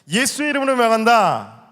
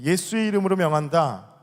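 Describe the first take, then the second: First: It is said loudly, with bold force. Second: It is said quietly, with little force. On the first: The speaker calls it right. "담대하게 선포하십시오" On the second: The speaker calls it wrong. "제가 너무 작게 말했죠"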